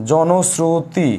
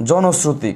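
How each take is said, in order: First: জনশ্রুতি slowly, stretched syllable by syllable; dictation repeat. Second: Said in the usual way. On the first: Shown as a demonstration. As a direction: draw out each syllable of জনশ্রুতি for writing down. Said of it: "কি বলেছি?". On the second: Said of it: "লিখে রাখো".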